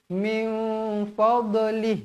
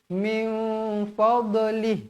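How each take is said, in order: First: The consonant is released with an echoing bounce. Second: The consonant is released with an echoing bounce.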